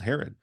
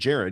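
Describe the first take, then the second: First: The name starts with an h sound. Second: The name starts with a j sound. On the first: "if you were a Mexican ... you would be called Herod" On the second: "named Jared"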